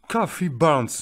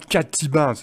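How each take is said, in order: First: The middle consonant of Cathy is a th sound. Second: The middle consonant of Cathy is a plain t. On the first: The speaker calls it right. "on a un T H ici... ça ressemble à un F" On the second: The speaker calls it wrong. "C'est pas Cathy Barnes"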